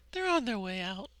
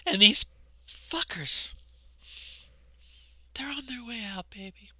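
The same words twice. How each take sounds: First: Said in the usual way. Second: Breathy conspiratorial whisper. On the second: Real, not acted. Telling viewers their opponents are leaving, in a whisper. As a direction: whisper it close to the mic with glee.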